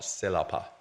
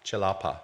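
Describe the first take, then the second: First: The first sound is not a ch sound. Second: The first sound is a ch sound. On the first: The speaker calls it wrong. "not celapa" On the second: The speaker calls it right. "C in Malay is always pronounced as a ch"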